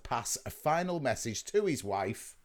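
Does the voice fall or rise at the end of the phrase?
rise. The voice does not fall at the end. The next words seem to name the wife. The speaker calls it wrong.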